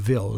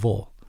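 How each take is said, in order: First: The syllable sounds like 'vill'. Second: The syllable sounds like 'vull'. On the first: The speaker calls it wrong. "you'll never hear of Ville" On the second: The speaker calls it right. "It's all Vull"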